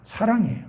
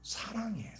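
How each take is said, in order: First: Said in the usual way. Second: Much softer, with a falling close; hushed answer. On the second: Real, not acted. Preacher answering what a parent's motive is, hushed. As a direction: let the answer drop to a hush. Soft answer to his own question.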